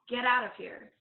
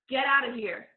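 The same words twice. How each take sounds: First: It is said with low energy. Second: It is said with big, high energy.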